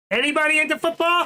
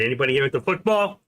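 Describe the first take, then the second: First: Much higher, louder sing-out of the question; calling out to chat. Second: Said in the usual way. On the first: Pretend. Streamer calling out to his viewers, loud and high. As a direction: call it out like hailing a crowd.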